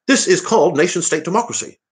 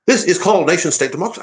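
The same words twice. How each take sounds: First: A second go at Farage, pitched much higher; Farage impression. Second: A high, put-on Nigel Farage voice; a hammed-up Farage, pitched well up; Farage impression. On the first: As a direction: push the Farage voice higher and lay it on thicker. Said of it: "I can't do it". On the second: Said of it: "let me".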